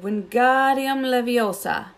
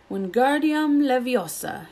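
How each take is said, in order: First: Wingardium Leviosa high, slow, the ga in Leviosa drawn long; correct spell. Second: Shouted spell. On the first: Shown as a demonstration. Hermione casting the spell correctly to show Ron. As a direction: cast it slowly and precisely, ga long. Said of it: "and said". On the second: Acted. Ron shouting the spell at his feather. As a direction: spell shouted high and slow. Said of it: "he shouted".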